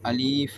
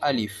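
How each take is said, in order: First: The middle vowel is long, ending in f. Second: The middle vowel is short, ending in f. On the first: The speaker calls it wrong. "சிலவங்க மொழிகிறது அலீஃப் என்று ... அது தவறானது" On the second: The speaker calls it right. "சரியான உச்சரிப்பு அலிஃப்"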